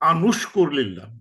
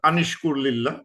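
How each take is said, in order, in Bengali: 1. 'an'-এর পরের সংযোগী স্বরবর্ণ u। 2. 'an'-এর পরের সংযোগী স্বরবর্ণ i। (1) "কাজটা না দিয়ে এখানে একটা দাম্মা দিয়ে দিচ্ছে" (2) "একটা কাজটা দিতে পারি"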